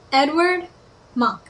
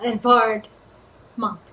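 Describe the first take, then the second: First: The first name is said with a w sound. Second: The first name is said with a v sound. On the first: The speaker calls it wrong. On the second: The speaker calls it right.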